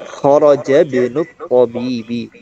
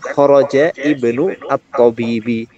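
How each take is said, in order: First: The article's vowel is dropped and linked. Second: The article's vowel is pronounced as a separate sound. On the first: The speaker calls it right. "kharaja ibnu tabibi bukan kharaja ibnu at-tabibi" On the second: The speaker calls it wrong. "bukan kharaja ibnu at-tabibi"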